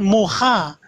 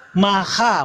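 First: Muha, first syllable with u, drawn out slowly; wrong reading. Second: Maha, with an open a in both syllables; correct reading. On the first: Debater mocking the rival's wrong reading, slow muha with u. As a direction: say muha slowly, stressing the u as the mistake. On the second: Debater showing the right Hebrew reading, Maha with open a. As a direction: say Maha slowly, ma-ha, both vowels a. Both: Shown as a demonstration. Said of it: "bukan muha".

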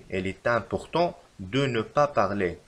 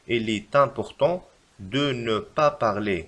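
First: Slow, even reread; slow repeat. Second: Very slow, in two chunks; slow dictation. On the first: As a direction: say it slowly again in one go. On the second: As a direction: dictate the correction slowly. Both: Shown as a demonstration. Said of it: "فالتصحيح لهذه الجملة يجب كتابة".

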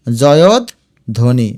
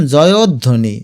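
First: জয়ধ্বনি very slowly as joyod, dhoni; lower, with a long pause inside জয়ধ্বনি; broken into parts. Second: Said in the usual way. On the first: Shown as a demonstration. Teacher shows students the parts, জয়ধ্বনি slowly split. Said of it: "এই দেখো". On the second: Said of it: "এটার উচ্চারণ".

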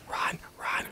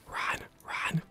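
No difference in how they are said.

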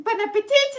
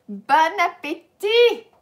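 First: Bon appetit with a hard T sounded at the end, higher and louder; mock wrong T. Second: Bon appetit with no T at the end, slow and loud; correct silent T. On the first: Teacher mimics students pronouncing the T wrongly. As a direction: imitate students saying appetit with the final T. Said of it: "Do not pronounce the T at the end". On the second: Shown as a demonstration. Teacher corrects the student with the silent T. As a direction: show appetit ending on the vowel.

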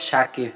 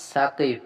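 First: সাকিব begun with "sh", as Shakib; others' mispronunciation. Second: সাকিব begun with a thin hissed s; proper name pronunciation. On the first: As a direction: say সাকিব with a hushing sh for the s. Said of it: "কেউ অশুদ্ধ হয়ে বলে". (সাকিব-এর স কে শ করে উচ্চারণ) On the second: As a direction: say সাকিব with "s", not "sh". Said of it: "কেউ শুদ্ধ হয়ে বলে". (সাকিব, দন্ত্য স দিয়ে উচ্চারণ) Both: Shown as a demonstration.

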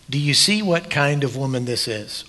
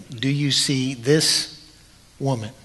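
First: Said in the usual way. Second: Gentle, slow question. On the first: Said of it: "He didn't say". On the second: Retold or imitated. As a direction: ask it gently, drawing out "Do you see this". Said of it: "He's looking at the woman saying".

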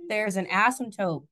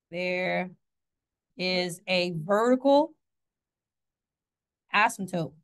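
First: Said in the usual way. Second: Slow, drawn-out, weighty announcement; slow dramatic emphasis. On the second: Shown as a demonstration. Teacher to class, slow mock-dramatic reveal. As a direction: spell it out slowly for the class. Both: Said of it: "I don't know why I did that".

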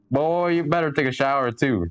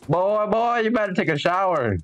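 First: Said in the usual way. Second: A bit higher, scolding. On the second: Acted. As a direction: nag him to take a shower, higher.

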